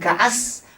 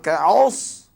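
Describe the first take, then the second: First: The s sound is thin, like a plain s. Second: The s sound is thick and heavy. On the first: The speaker calls it wrong. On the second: The speaker calls it right.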